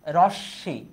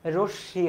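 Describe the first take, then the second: First: রশ্মি with an open 'o' in the first syllable, 'rawsh-shi'; wrong pronunciation. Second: রশ্মি with a closed 'o' in the first syllable, 'rosh-shi'; correct pronunciation. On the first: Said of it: "এটা ভুল". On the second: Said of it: "কারণ এটার উচ্চারণ কি হবে". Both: Shown as a demonstration.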